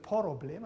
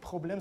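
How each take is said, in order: First: A vowel is inserted to break the opening cluster. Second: The opening consonant cluster is kept together. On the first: "Türkisch duldet das nicht, deswegen trennt das" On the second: "nicht Problem"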